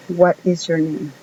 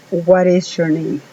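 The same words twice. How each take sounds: First: Said in the usual way. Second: "what is" run together with a tapped r, "whar is". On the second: Shown as a demonstration. Teacher shows English speakers' T, "what is" as "whar is". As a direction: flap the t of what into a Spanish r. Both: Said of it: "la hacen sonar como si fuera una R".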